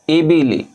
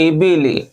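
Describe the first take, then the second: Both takes have the same delivery.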